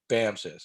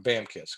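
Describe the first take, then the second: First: The second syllable starts with an s sound. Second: The second syllable starts with a k sound. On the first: This is the speaker's usual pronunciation. "I've always pronounced this BAMSIS" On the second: Others in the same service say it this way. "I've heard uh, fellow Marines call it BAMKIS"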